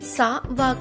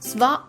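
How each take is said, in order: First: A vowel separates the s and w sounds. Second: The s and w sounds run together without vowel. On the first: The speaker calls it wrong. "సా వా కాకుండా" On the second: The speaker calls it right. "స్వా అవుతుంది"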